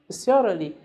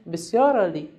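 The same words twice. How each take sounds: The two takes are said the same way.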